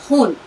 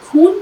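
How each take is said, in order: First: The word begins with a raspy throat fricative. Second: The word begins with a plain aspirated stop. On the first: The speaker calls it right. "खे की आवाज सही निकालिए" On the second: The speaker calls it wrong. "खून कोई लफ्ज नहीं होता"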